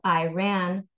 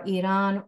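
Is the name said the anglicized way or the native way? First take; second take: anglicized; native. First: The name is said with an anglicized pronunciation. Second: The name is said closer to the native pronunciation. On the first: The speaker calls it wrong. "instead of" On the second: The speaker calls it right. "closer to how those nationalities would pronounce them"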